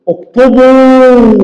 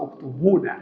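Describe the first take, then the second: First: "اكتبوا" higher and drawn out, ending on the long و; correct form, stretched. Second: "اكتبون" said quietly, with the final ن sounded; original form. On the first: Teacher giving the plural imperative to the class, slow demo. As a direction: hold the واو of "اكتبوا", no nun. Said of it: "يبنى على حذف النون". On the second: Teacher showing the underlying plural form, soft quick aside. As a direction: add the nun: "اكتبون". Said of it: "أصل". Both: Shown as a demonstration.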